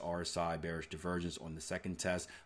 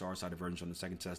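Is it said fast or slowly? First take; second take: slowly; fast. First: It is said slowly. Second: It is said quickly.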